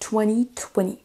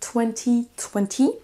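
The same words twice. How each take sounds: First: The second T in twenty is dropped. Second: The second T in twenty is clearly pronounced. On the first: "les Américains vont l'omettre et on ne l'entend pas" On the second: "les Britanniques vont prononcer le deuxième T ici"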